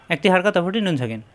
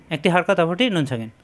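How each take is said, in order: Both takes have the same delivery.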